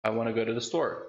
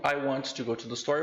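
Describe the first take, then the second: First: "I wanna go to the store" with "wanna" linked; "I wanna go to the store" smoothly connected; connected speech. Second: "I want to go to the store" said word by word; "I want to go to the store" unreduced; careful full form. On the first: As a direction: blend it into "wanna". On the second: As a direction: spell out every word, "want to". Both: Shown as a demonstration. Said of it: "eu vou falar do discurso conectado".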